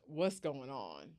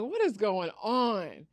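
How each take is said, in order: First: Low-key, drawn-out confused question; quiet bewilderment. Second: Raised, drawn-out baffled question; stunned disbelief. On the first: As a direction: ask it slowly and softly, puzzled. Bewildered by cousin and stranger. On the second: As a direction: stretch it out higher, in disbelief. Stunned at claimed brother, asks louder. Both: Retold or imitated.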